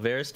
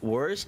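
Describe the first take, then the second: First: It starts with a v sound, German style. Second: It starts with a w sound, English style.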